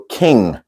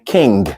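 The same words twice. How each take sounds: First: The word ends with a plain ng sound. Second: The word ends with a separate g sound. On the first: The speaker calls it right. "So it is pronounced ng" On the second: The speaker calls it wrong. "instead of going king"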